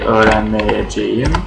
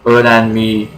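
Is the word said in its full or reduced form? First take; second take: full; reduced. First: Every syllable of the full suffix is pronounced. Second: The suffix is shortened into a long e sound. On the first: "in negative form will be" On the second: "this is only for spoken language"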